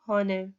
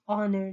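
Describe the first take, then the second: First: The word begins with an h sound. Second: The word begins with a vowel sound. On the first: The speaker calls it wrong. "not honor" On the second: The speaker calls it right. "we pronounce it with O, not H. We say honor"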